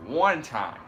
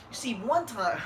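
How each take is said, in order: First: Loud boxer catchphrase; Keith Thurman. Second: Higher lisping boxer catchphrase; Keith Thurman. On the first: Co-host quotes a boxer's catchphrase, loud imitation. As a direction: punch it out loud, mimicking a fighter. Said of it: "Keith Thurman's like". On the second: Host corrects the boxer impression, higher lisping voice. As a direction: imitate a lisp, pitched up. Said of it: "he has a list for Keith Thurman". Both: Acted.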